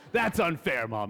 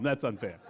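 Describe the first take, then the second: First: Whiny protest. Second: Said in the usual way. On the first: Retold or imitated. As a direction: complain like a kid wronged by mom. Child protesting to mom.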